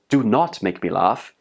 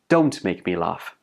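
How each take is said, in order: First: The words do not are said in full. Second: The words do not are contracted to don't. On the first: The speaker calls it wrong. "don't say" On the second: The speaker calls it right. "That's much more natural"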